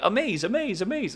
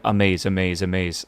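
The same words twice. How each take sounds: First: The voice is lively with varied pitch. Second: The voice is flat and monotone. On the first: This is how the character sounded when imagined from the book. "I always thought he was like" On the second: This is how the character sounds in the movie. "the most monotone sounding voice ever"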